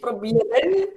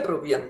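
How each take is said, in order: First: The word is said in full, with every syllable. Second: The word is said shorter, with the ending reduced. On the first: The speaker calls it wrong. "probieren ist Hochdeutsch" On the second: The speaker calls it right. "alles ist kürzer"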